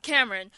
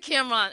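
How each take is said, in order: First: Said in the usual way. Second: Cameron as KAM-rahn, two syllables with a broad final ah; Harlem pronunciation. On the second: Shown as a demonstration. Host owning her Harlem way of saying it. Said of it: "it's a Harlem thing".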